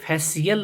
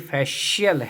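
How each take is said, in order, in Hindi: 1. बीच का व्यंजन एक सादा 's' ध्वनि है। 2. बीच का व्यंजन एक 'sh' ध्वनि है। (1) "सो ये फैसियल नहीं है" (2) "श साउंड निकल जाती है"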